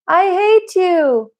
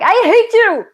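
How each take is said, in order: First: It is said calmly, without anger. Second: It is said angrily, with strong emotion.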